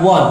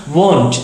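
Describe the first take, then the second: First: WANT with an open a; read as "want". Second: WON'T with a long o; correct won't. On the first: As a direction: say WANT with an open vowel, like "wahnt". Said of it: "bacanya bukan want". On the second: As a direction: say WON'T as "wohnt". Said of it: "bacanya bukan want, tapi won't". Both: Shown as a demonstration.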